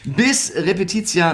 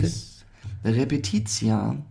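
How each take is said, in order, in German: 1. Die Phrase wird schnell und hastig gesprochen. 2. Die Phrase wird langsam und ruhig gesprochen. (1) "Slow down" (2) "ganz ruhig"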